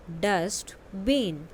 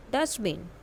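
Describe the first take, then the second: First: "dustbin" stretched slowly, syllable by syllable; slow model word. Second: Said in the usual way. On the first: Shown as a demonstration. (धीरे-धीरे खींचकर "dustbin") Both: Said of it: "listen to your teacher and say the following word".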